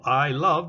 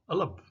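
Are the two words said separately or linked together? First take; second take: separate; linked. First: The two words are said separately and fully. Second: The words are reduced and linked into one sound.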